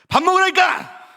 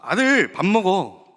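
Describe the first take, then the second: First: It is said loudly with a raised, angry tone. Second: It is said warmly and affectionately.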